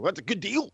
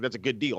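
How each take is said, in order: First: High, disbelieving question; incredulous echo. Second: Said in the usual way. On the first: Retold or imitated. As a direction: throw it back, pitched up in disbelief. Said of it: "I'm like". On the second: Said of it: "everybody's like".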